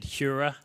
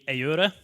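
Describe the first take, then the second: First: The name is said the English way. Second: The name is said the original Spanish way. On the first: This is the form people commonly use. "in the U K, we've kind of accepted Hura will be the way people will say it" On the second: This is the technically correct form. "it's technically Eura"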